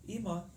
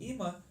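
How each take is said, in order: No difference in how they are said.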